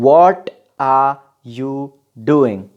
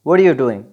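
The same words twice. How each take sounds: First: Each word is said slowly and separately. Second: The words flow quickly together.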